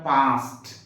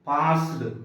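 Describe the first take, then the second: First: The word ends with a t sound. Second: The word ends with a d sound. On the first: The speaker calls it right. "యాక్చువల్గా పాస్ట్" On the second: The speaker calls it wrong. "పాస్డ్ కాదు"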